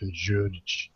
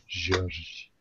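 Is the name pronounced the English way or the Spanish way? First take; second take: English; Spanish. First: The name is said with an English J sound. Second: The name is said with a Spanish H-like sound. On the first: "With a J, it's normally like George" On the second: "It's like exotic George"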